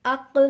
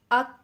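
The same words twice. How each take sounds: First: اق with the ق bounced out at the end; اق with a bouncing qalqala ق; qalqala qaf. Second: اق ending on a stopped ک; no qalqala, thin kaf. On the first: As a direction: let the ق of اق rebound. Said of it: "قاف کے ساتھ باریک کاف". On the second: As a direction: stop dead on the ک of اق. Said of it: "باریک کاف کو لے لیں جس پہ قلقلہ نہیں ہوتا". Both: Shown as a demonstration.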